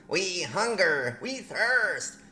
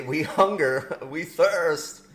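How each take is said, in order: First: High, slow, drawn-out goblin wail; goblin plea. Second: Said in the usual way. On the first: Pretend. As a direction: wail it like a hammed-up hungry goblin. Reads aliens' message in goblin character.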